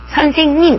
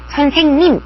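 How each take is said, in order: The two takes are said the same way.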